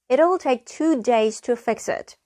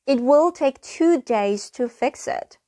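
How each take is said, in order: First: It will is merged into one short syllable. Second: It will is said as two full words.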